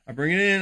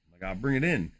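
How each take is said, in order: First: Said in the usual way. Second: Silky baritone. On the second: Shown as a demonstration. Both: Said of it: "that silky smooth baritone".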